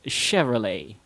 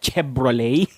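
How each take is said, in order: First: The middle consonant is a v sound. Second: The middle consonant is a b sound. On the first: The speaker calls it right. "start with an S H sound" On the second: The speaker calls it wrong. "not pronounced with a B sound"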